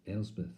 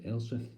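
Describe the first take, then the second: First: Said in the usual way. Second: "Elspeth" ending in f for th; impaired speech. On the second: Acted. Brother naming his sister, impaired "Elspef". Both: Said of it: "Of course, to him".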